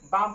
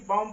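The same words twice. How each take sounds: First: बाम with the final b left silent. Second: बॉम with the b fully sounded at the end; sounded out bomb. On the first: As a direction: say बाम and drop the closing b. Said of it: "बॉम न पढ़ के इसको बाम पढ़ेंगे". (बी को मौन रखकर बाम बोलना) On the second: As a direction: read बॉम as if the final b were spoken. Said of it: "वैसे इसको क्या पढ़ते". (अंतिम बी बोलकर बॉम पढ़ना) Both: Shown as a demonstration.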